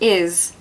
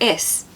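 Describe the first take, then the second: First: The word ends with a buzzing Z sound. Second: The word ends with a hissing S sound. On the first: The speaker calls it right. "we say is instead of is" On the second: The speaker calls it wrong. "instead of is"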